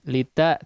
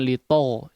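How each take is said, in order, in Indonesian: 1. Vokal setelah t terdengar terbuka, seperti a. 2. Vokal setelah t terdengar bulat, seperti o. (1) "sempurnakan fathahnya" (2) "jangan lito"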